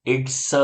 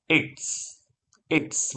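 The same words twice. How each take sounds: First: ઇટ્સ with the s drawn out into a full sa vowel; wrong drawn-out pronunciation. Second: ઇટ્સ with short i and a voiceless s ending; short hissed ending. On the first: Teacher warns students how not to say it, drawn-out ઇટ્સ. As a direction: stretch ઇટ્સ into eet-sa. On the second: Teacher corrects students and models it, short ઇટ્સ with hissed ending. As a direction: say ઇટ્સ as one syllable, ending on pure hiss. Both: Shown as a demonstration. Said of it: "એમ નથી કહેવાનું".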